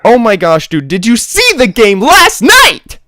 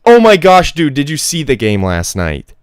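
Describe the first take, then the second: First: It is said very loudly. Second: It is said at a normal, quiet volume.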